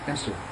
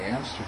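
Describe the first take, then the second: First: The middle syllable is held longest. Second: All three syllables take equal time. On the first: "16th, 8th, 16th" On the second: "They might say it evenly"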